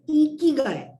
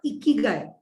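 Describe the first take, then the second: First: The first vowel is a long 'ee' sound. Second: The first vowel is not a long 'ee' sound. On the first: The speaker calls it right. "E Ikigai. This is the correct pronunciation" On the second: The speaker calls it wrong. "it is not Ikigai"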